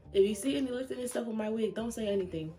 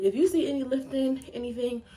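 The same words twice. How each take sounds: First: Said in the usual way. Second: Breathless and rushed; words between quick breaths. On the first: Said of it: "Hold on". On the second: Real, not acted. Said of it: "I'm out of breath".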